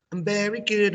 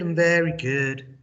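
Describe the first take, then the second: First: High bright answer, "good" falling; teacher modeling a happy reply; cheerful model answer. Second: "very" punched, louder; stress on very. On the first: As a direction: sing out "good" to the class. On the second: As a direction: lean hard on "very". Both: Shown as a demonstration. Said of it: "I do the English".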